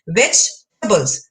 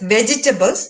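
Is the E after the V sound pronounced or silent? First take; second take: silent; pronounced. First: The E after the V is silent. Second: The E after the V is pronounced aloud. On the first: The speaker calls it right. "The right pronunciation is vegetables. The E in V G E is silent" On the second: The speaker calls it wrong. "It's commonly pronounced as vegetables, but it's not"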